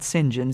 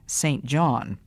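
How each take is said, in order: First: The name is said as one clipped word. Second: The name is said as two full words. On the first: "the British call it St. John" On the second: "what is spelled St. John"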